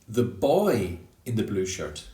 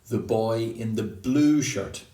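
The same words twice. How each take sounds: First: The word boy carries the main stress. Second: The word blue carries the main stress. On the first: It is not a girl wearing it. "not the girl in the blue shirt" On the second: It is not a shirt of another color. "like not the boy in the green shirt"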